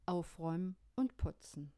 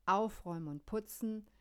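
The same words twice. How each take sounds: First: Whispered. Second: Said in the usual way. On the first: Shown as a demonstration.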